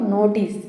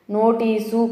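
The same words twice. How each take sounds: First: "నోటీస్" ending on a bare s, no vowel after it; correct pronunciation. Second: "నోటీసు" drawn out with an added u at the end; wrong pronunciation. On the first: Teacher correcting the mistake, "నోటీస్" with clean final s. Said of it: "అని పలకాలి". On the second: Teacher showing the mistake to avoid, slow "నోటీసు" with final u. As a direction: slowly finish "నోటీసు" on a vowel, su. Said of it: "కాదు". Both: Shown as a demonstration.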